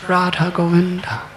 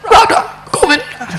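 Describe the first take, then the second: First: Said in the usual way. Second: Much higher, louder puppy yelp of Radha Govinda. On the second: Shown as a demonstration. Showing how the puppy chanted, in a high yipping puppy voice. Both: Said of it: "How do puppies say it?".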